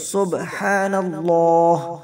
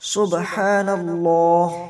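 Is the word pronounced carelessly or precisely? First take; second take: precisely; precisely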